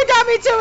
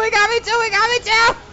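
First: High shouted protest; shouting. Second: High yelled complaint; shouting. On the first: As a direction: yell it out, stunned. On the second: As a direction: keep yelling in disbelief. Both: Real, not acted. Repeated shouted lament.

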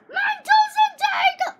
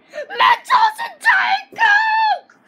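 First: High, quicker repeated scream; excited yell. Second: Very high, slow, stretched-out scream; excited yell. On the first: Kid screams his product name again, high. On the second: Kid screams his product name with delight, very high. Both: Acted.

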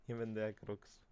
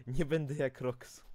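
First: Said in the usual way. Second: Loud, raised vow, punching nie; emphatic declaration. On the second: Shown as a demonstration. (głośna, dobitna deklaracja)

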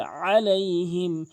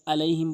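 First: আলাইহিম opened with mid-throat ain; strong ain starting আলাইহিম; correct ain. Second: আলাইহিম with hamza for ain; light আলাইহিম, no throat; common mispronunciation. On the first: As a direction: press the first আ of আলাইহিম in the throat. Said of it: "বলতে হবে". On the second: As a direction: say আলাইহিম on a plain vowel onset. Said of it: "অধিকাংশ লোক আলাইহিম বলে". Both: Shown as a demonstration.

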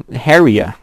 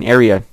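First: Area said as "hairia" with an added H; wrong pronunciation. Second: Area said cleanly, no H at the start; corrected pronunciation. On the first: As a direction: slip an H onto the front of Area. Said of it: "I said it with the H". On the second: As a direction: fix it: area with an open vowel. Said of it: "there's no H in area". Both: Real, not acted.

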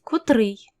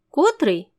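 First: Котрий stressed on final -рий; slow котрий with standard end stress; correct stress. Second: Котрий stressed on ко-; slow котрий with faulty front stress; wrong stress. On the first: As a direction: put the stress of котрий on the last syllable. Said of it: "замість котрий". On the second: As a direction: misplace the stress of котрий onto the first syllable. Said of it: "іноді можна почути". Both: Shown as a demonstration.

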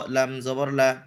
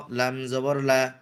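No difference in how they are said.

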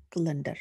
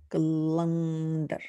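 First: Said in the usual way. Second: Calendar stretched slowly, syllable by syllable; slow sounding out. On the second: Shown as a demonstration. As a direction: say calendar slowly so a child can follow. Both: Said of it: "That's how they sound".

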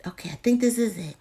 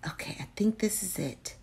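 First: Said in the usual way. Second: Soft whispered aside; whispering. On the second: Real, not acted. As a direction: whisper it to yourself. Repeats it in a whisper.

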